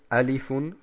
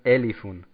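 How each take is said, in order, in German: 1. Der erste Vokal ist ein offenes 'a'-Laut. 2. Der erste Vokal ist ein 'e'-Laut. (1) "sie sagen nicht Alifun" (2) "sondern sie sagen Elifun. Und das ist falsch"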